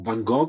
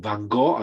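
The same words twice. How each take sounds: First: The name is said in an Italian accent. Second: The name is said in an American accent. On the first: "as we say in Italian" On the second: "as you say in American"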